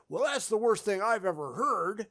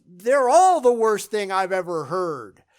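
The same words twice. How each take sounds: First: Softer hypothetical quote with THAT'S picked out; held-back quote, set apart from your own point; quoted verdict. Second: Emphatic correction leaning heavily on "all"; stress on ALL. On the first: Acted. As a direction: say it as an imagined remark, stress on "that's". Hypothetical quote, then contrasted with all. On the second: Real, not acted. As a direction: hit the word "all" hard, louder. Corrects the quote: all are worst.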